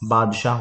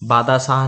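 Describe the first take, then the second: First: The d runs straight into the sh sound. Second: An extra long vowel follows the d sound. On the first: The speaker calls it right. "बादशाह होता है" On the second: The speaker calls it wrong. "बादाशाह नहीं होता है"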